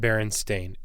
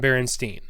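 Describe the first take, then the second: First: The last syllable rhymes with 'rain'. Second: The last syllable ends in a 'stine' or 'steen' sound. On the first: This is the pronunciation nobody has used. "No one's pronounced it Berenstain ever" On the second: This is the pronunciation everyone has always used. "It's always been Berenstein"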